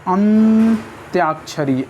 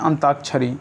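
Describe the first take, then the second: First: It is said with a 'y' sound after 'ant'. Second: It is said without a 'y' sound after 'ant'. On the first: The speaker calls it right. "अंताक्षरी की जगह होगा अंत्याक्षरी" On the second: The speaker calls it wrong. "हम लोग बहुत बोलते हैं अंताक्षरी, अंताक्षरी नहीं होता है"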